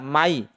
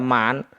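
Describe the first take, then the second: First: The n merges into the following y sound. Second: The final n is pronounced clearly. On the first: The speaker calls it right. "maka dibaca may" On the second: The speaker calls it wrong. "semestinya dibaca man"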